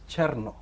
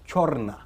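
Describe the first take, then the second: First: The name begins with a cher sound. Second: The name begins with a chor sound. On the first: This is how the owner of the name says it. The speaker calls it right. "The right pronunciation is Cherno" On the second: This is how one tribe says the name. The speaker calls it wrong. "they pronounce it as Chorna"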